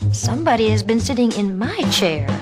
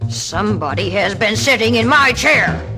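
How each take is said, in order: First: It is said in a medium, calmer voice. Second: It is roared in a big, deep voice.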